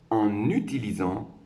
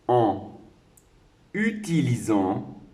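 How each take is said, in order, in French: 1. Le n est reporté sur utilisant. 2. Le n n'est pas reporté sur utilisant.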